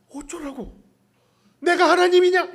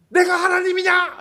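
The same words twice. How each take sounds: First: Louder, higher, stress on 하나님이냐; irritated retort. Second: Louder, higher, stress on 내가; irritated retort. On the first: Jacob snapping at Rachel, stress on 하나님이냐. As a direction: snap back, punching 하나님이냐 hard and high. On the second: Jacob snapping at Rachel, stress on 내가. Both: Retold or imitated. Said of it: "막 승질이 나".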